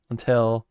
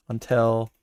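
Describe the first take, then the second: No difference in how they are said.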